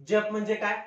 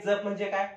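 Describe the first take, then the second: The two takes are said the same way.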